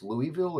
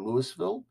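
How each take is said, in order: First: Louisville with a silent S, "Louie-ville"; Louisville pronounced like "Louie" plus "ville"; Louisville as "LOO-ee-vil". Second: Louisville with the S sounded, "Lewis-ville"; Louisville pronounced like "Lewis" plus "ville"; Louisville as "LOO-iss-vil". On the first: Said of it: "I don't know if it's Louisville or". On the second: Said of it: "if it's Louisville or Louisville". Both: Shown as a demonstration.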